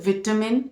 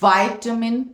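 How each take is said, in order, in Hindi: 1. पहला शब्दांश 'vit' जैसा सुनाई देता है। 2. पहला शब्दांश 'vai' जैसा सुनाई देता है। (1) "vitamin in British" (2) "vitamin in American"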